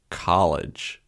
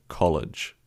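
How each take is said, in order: First: "college" with an American ah vowel; mock American "college", open ah; terrible American accent. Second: "college" with a rounded Australian o; own Australian accent. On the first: Demonstrating to a friend, American "college" with ah. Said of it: "terrible American accent". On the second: Contrasting his own accent, Australian "college" with round o. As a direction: native "college", short round o. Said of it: "as opposed to college". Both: Shown as a demonstration.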